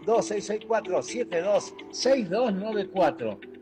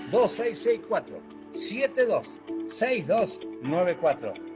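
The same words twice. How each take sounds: First: The number is said quickly. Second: The number is said slowly.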